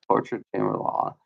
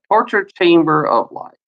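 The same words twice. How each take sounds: First: Whispered under his breath; whispering the phrase to himself. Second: Said in the usual way. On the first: Real, not acted.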